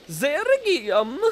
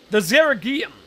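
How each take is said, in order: First: Put-on slow, drawn-out Tusk-style accent. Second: Said in the usual way. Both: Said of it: "that accent was".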